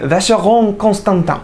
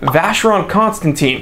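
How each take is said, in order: First: The name is said with a French accent. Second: The name is said with an American English accent. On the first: "not saying" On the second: "when I am a native English speaker of the American variety... when I pronounce things like"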